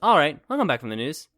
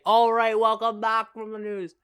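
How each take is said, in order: First: It is said casually, as if to someone else. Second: It is said like an announcing podcast host.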